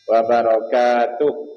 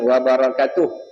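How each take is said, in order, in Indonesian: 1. Vokal pada suku kata ka panjang. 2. Vokal pada suku kata ka pendek. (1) "Sebab kaf baris atas, lepas tu alif" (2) "Bukan wabarakatuh"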